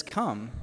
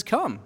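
First: Low, soft, falling invitation; gentle command. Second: Raised, falling one-word invitation; simple command. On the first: Jesus inviting Peter onto the water, gentle and low. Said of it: "And he says". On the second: Jesus inviting Peter onto the water, raised simple command. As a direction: say it higher, then let it fall. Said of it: "He says". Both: Retold or imitated.

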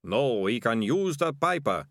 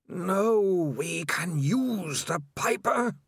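First: Plainer ratcatcher, slow and dazed; ratcatcher echoing. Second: Slow, eerie, windy otherworldly voice; rushing wind voice. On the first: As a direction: repeat it like your own idea. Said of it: "said Ratcatcher One". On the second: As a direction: breathe it like wind with a groan. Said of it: "The next voice came from everywhere". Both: Acted.

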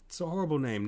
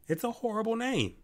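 First: Said in the usual way. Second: High-pitched disbelief at a horrible name; exasperated outburst. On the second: Real, not acted. Podcaster ranting about a baby name, exasperated high outburst. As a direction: let it burst out high and appalled.

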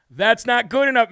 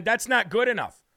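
First: Firm, raised voice to the senator; telling Corman his answer falls short, louder; louder repeat. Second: Said in the usual way. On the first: Real, not acted. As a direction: say it again, pushing harder.

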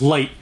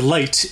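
First: "light" with the T swallowed; dropped final T. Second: "light" with the T released; final T sounded. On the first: Showing the New Jersey habit, "light" with swallowed T. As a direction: cut "light" off before the T is released. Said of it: "you don't have a T at the end". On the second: Showing the standard form, "light" with its final T. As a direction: finish "light" on a clear T. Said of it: "instead of light". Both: Shown as a demonstration.

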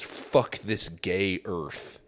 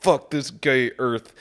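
First: Slow, lower, mock-tragic brooding; melodramatic despair. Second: Slowed, put-on voice for the doomed loner; hammed-up tragic line. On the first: Mocking the cartoon guy's final thought, slow mock-tragic. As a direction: drag it out like a wounded loner. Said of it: "And then he goes". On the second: Repeating the punchline to mock its fake emotion, hammed-up. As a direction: savour it like a cheesy emotional climax. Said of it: "it's supposed to make you feel really emotional".

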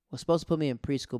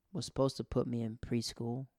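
First: Faster, louder, stress on supposed; emphatic repeat. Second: Said in the usual way. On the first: Real, not acted. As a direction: punch "supposed" hard and quick.

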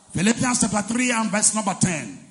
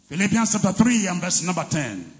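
Both takes have the same delivery.

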